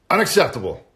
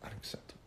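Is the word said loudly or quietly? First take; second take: loudly; quietly. First: It is said loudly, hitting the A. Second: It is said quietly in a different voice.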